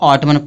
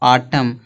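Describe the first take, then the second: First: The final n sound is pronounced. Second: The final n sound is silent. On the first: The speaker calls it wrong. "कुछ लोग इसको ऑटमन पढ़ देते हैं" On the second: The speaker calls it right. "यन क्या होगा, silent होगा, इसको पढ़ेंगे ऑटम"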